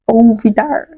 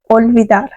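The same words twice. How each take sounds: First: Olvidar said "ovidar", L dropped; Brazilianized. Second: Olvidar with a strong, clear L. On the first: Teacher mocks Brazilian olvidar with the L swallowed. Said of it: "bem brasileirado". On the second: Teacher to students, Olvidar with a firm L. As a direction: sound the L of Olvidar firmly. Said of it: "se pronuncia bem forte". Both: Shown as a demonstration.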